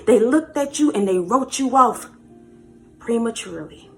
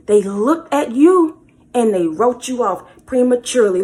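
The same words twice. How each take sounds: First: Said in the usual way. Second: Louder, pressing every word of the repeat; emphatic repeat. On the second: Shown as a demonstration. Preacher to viewers, repeating the line louder for emphasis. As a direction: say "They looked at you and they wrote you off prematurely" again, hammering it home.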